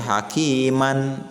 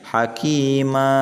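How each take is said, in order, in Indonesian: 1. Kata ini berakhir dengan bunyi n. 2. Kata ini berakhir dengan vokal terbuka yang panjang. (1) "asalnya dibaca hakiman" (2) "dibacanya hakima, maknya dibaca panjang ya, dua harokat"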